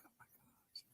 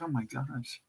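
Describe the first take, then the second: First: Voiceless whisper, stunned; whispered disbelief. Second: Much softer, stunned under the breath; hushed disbelief. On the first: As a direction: breathe it out as a shocked whisper. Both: Retold or imitated. Stunned reaction retold.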